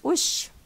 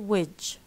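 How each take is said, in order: First: The word ends in a voiceless 'sh' sound. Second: The word ends in a voiced 'j' sound. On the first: "بنقولها بالعربي" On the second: "in Lebanese they say"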